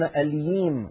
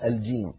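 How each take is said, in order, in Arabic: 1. الحرف هو صوت 'y'. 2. الحرف هو صوت 'j'.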